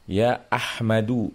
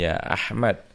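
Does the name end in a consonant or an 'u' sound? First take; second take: u sound; consonant. First: The name ends with a short 'u' vowel. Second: The name ends on the consonant, no vowel. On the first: "mabni ala dhammi ya, tanpa tanwin" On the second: "kalau kita mengucapkannya ya sukun aja"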